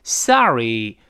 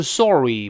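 First: "sorry" with open "ah" vowel; American sorry. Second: "sorry" with pouted "or" vowel; rounded-vowel sorry. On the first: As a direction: say "sorry" as SAH-ree, lips unrounded. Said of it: "字母O是发的啊这个声音". ("sorry"中O发"啊") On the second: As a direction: round the lips, SOR-ree. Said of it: "不要撅嘴啊". (撅嘴读"sorry") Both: Shown as a demonstration.

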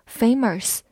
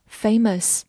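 First: "famous" with an r-coloured last syllable, like "famers"; wrong curled-tongue vowel. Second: "famous" ending in a neutral, r-less "muhs"; no curled tongue. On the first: Teacher shows learners the mistake, "famous" said with a curled-tongue r. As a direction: curl the tongue on the end of "famous". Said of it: "它没有卷舌，所以不要读作". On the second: Teacher corrects learners, "famous" said slowly without any r sound. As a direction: keep the tongue uncurled on the end of "famous". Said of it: "所以不要读作famous，而是famous". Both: Shown as a demonstration.

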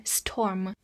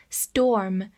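First: "storm" with a puffed, breath-released T after the S; unvoiced aspirated T. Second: "storm" with the T softened to a d sound, like sdorm; voiced T after S. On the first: Teacher shows the mistake, "storm" with a puffed T. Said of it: "而不是storm". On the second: Teacher shows the T after S, "storm" said with a d-like T. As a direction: say "storm" with an unaspirated, d-like T. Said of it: "会浊化". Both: Shown as a demonstration.

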